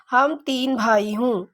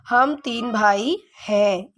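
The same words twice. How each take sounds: First: Wrong sentence read slowly. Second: हम तीन भाई हैं read out slowly, word by word; correct sentence, slow and clear. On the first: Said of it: "बोलने से ही पता चल रहा है". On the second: Teacher reading the corrected sentence slowly to pupils. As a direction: dictate it slowly for the class. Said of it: "ये सही होगा". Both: Shown as a demonstration.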